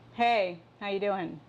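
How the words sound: It is said in an annoyed, loaded tone.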